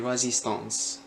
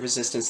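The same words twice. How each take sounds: First: It is said with a strong French accent. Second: It is said with a plain English accent. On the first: The speaker calls it wrong. "they'll say resistance" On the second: The speaker calls it right. "instead of resistance"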